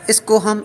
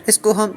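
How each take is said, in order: Both takes have the same delivery.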